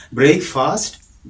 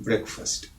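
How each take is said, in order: First: "ബ്രേക്ക്ഫാസ്റ്റ്" slow, brayk-FAAST, rising; long vowels in "ബ്രേക്ക്ഫാസ്റ്റ്"; wrong pronunciation. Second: "ബ്രേക്ക്ഫാസ്റ്റ്" said softly as BREK-fust; short vowels in "ബ്രേക്ക്ഫാസ്റ്റ്"; correct pronunciation. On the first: Teacher contrasting for learners, the wrong brayk-faast. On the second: Teacher contrasting for learners, the right brek-fust, softly. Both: Shown as a demonstration. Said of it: "ആ വ്യത്യാസം മനസ്സിലായല്ലോ".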